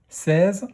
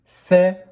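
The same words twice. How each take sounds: First: Said in the usual way. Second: "seize" split into sè, ze, loud on sè; a strong sè, then a separate ze for "seize"; syllable by syllable. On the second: Shown as a demonstration. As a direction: sound out "seize" in two beats. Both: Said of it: "Première syllabe".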